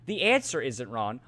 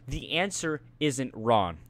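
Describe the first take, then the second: First: Said in the usual way. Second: Drawn-out "answer isn't wrong", word by word; slow, deliberate quote. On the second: Retold or imitated. Student retelling teacher's baffling verdict, slow and deliberate. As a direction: repeat the teacher's verdict slowly for effect.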